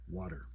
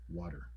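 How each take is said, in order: First: The T sounds soft, almost like a D. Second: The T sounds soft, almost like a D.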